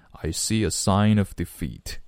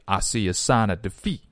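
First: Said in the usual way. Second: "I see a sign of defeat" in a demonstrated African American accent; African American English accent. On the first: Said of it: "那如果正常呢". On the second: Shown as a demonstration. Teacher showing learners how Black speakers would say it, African American accent. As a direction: imitate African American pronunciation, vowels loosened toward "ah". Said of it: "如果按照黑人的发音方式".

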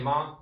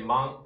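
First: ま read as a plain open "ma"; 读音示范. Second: ま read with a nasal ん ending, "man"; 读音示范. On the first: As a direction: say ま as one open syllable, "ma". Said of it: "它有可能念ま". (ま读作开音节"ma") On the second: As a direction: say ま as "man", closing on ん. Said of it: "有个念碎音啊". (ま读作带拨音的"まん") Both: Shown as a demonstration.

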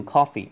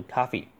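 First: Coffee in British English, with a rounded short o as in "cot"; British pronunciation. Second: Coffee in American English, with an open unrounded "ah" vowel; American pronunciation. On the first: Teacher showing students the British coffee. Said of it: "英式你可以读coffee". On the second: Teacher showing students the American coffee. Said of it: "美式读coffee". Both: Shown as a demonstration.

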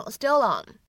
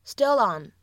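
First: "still on" joined as "stillon", the l carried into on; linked still on. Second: "still on" said again as "stillon"; linked still on. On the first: Teacher shows students the linked "still on". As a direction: roll "still on" together as one word. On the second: Teacher repeats the linked "still on" for learners. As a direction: run "still on" together smoothly. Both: Shown as a demonstration. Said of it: "可以读成".

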